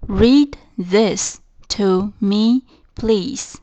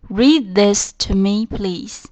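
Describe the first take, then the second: First: Each word of Read this to me, please spaced out slowly; slow model reading. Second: Said in the usual way. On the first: Shown as a demonstration. Teacher repeating the sentence for students, very slow and clear. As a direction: spell it out slowly for learners. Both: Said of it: "再重复一遍这个句子".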